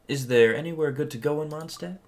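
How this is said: It is said in a put-on little voice.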